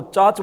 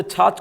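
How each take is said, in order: First: चाच, both छ sounds without the puff of air; unaspirated ch. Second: Said in the usual way. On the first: Retold or imitated. Teacher listing mother-tongue examples, चाच without aspiration. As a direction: say छाछ as चाच. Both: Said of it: "ये मातृभाषा के प्रभाव".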